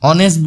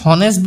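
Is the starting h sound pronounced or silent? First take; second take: silent; pronounced. First: The word starts with a vowel sound. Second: The word starts with an h sound. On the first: The speaker calls it right. "অনেষ্ট বুলি পঢ়ো" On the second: The speaker calls it wrong. "আমি হনেষ্ট বুলি নপঢ়ো"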